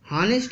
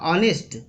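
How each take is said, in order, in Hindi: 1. शब्द की शुरुआत में साफ़ सुनाई देने वाली h की आवाज़ है। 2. शब्द की शुरुआत एक स्वर से होती है, इसमें h नहीं है। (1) "कुछ बच्चे हॉनेस्ट कहते हैं। हॉनेस्ट सरासर गलत है।" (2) "यहाँ यच साइलेंट है"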